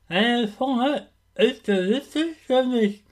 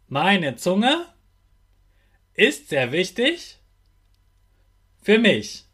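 First: The sentence is spoken with slurred, distorted articulation. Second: The sentence is spoken with clear, normal articulation. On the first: "Ich mach's jetzt auch mal" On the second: "Dann sprich mir jetzt nach"

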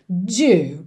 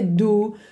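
First: The word is said like 'dew', with rounded lips. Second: The word is said like 'do', a plain 'oo'. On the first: The speaker calls it right. "porque tem que ter biquinho" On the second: The speaker calls it wrong. "não pode ser do"

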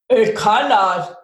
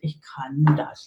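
First: It is said with a strong, forceful voice. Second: It is read out flatly, without energy.

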